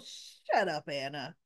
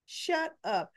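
First: Said in the usual way. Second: "Shut up" said higher and sharper, punching "Shut"; annoyed retort. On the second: Real, not acted. Viewer fed up with Anna snaps back, "Shut up" higher and firmer. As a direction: repeat "Shut up" with more force than the first time. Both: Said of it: "I was like, Oh".

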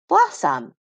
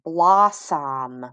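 First: Said in the usual way. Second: Blossom stretched, both syllables given full length; sounded out slowly. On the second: Shown as a demonstration. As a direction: draw out blos and som in blossom. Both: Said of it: "Sound it out with me".

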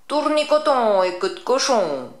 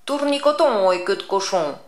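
First: Loud, higher cackling witch incantation; witch crying out. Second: Louder witch chant; a witch's familiar charm; witch incantation. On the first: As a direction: cast it like a gleeful old witch. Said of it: "elle s'écria". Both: Acted.

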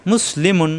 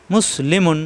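Both takes have the same delivery.

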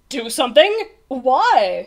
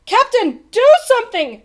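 First: Puzzled, smiling questions; smiling unconcern. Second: High, loud urgent plea; shouting. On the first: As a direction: question it with a carefree smile. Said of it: "smiled the captain". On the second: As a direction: shout desperately for action. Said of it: "shouted Bartholomew". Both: A narrator's reading.

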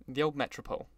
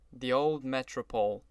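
First: Said in the usual way. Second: Gloomy brooding. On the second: A narrator's reading. Wolfsheim recalls his old haunt, brooding gloomily. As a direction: linger on the words, brooding a little. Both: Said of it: "brooded Mister Wolfsheim gloomily".

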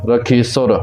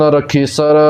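First: ਰਖੀਸੁਰ with a short u after the s; rounded last vowel in ਰਖੀਸੁਰ. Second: ਰਖੀਸਰ with a short neutral a after the s; unrounded last vowel in ਰਖੀਸਰ. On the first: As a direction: say ਰਖੀਸੁਰ ending in "sur". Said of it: "ਸੱਸੇ ਨੂੰ ਔਂਕੜ". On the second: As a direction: say ਰਖੀਸਰ ending in "sar". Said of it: "ਔਂਕੜ ਤੋਂ ਬਿਨਾਂ ਹੈ". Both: Shown as a demonstration.

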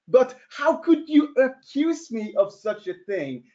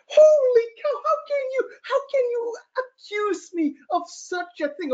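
First: Said in the usual way. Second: Hammed-up sob, much higher, wailing; mock crying. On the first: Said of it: "Okay, of course it was me". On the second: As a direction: fake tears of wounded innocence, squeaky high. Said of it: "I'm like".

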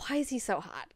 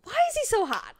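First: Hushed swooning. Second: High, incredulous swoon; high-pitched swooning. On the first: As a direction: ask it quietly, as if to yourself. Acted reaction to his looks. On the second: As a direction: let the question leap up high. Same reaction, escalated. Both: Retold or imitated.

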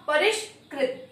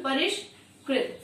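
First: परिष्कृत repeated slowly, with ष clear; teacher repeating परिष्कृत as a drill. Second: परिष्कृत said slowly, with ष and कृ clear; teacher modelling परिष्कृत for students; slow demo. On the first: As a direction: say परिष्कृत once more for the class. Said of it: "क्या हुआ". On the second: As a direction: sound out परिष्कृत carefully. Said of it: "तो हमारा क्या हो गया शब्द". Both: Shown as a demonstration.

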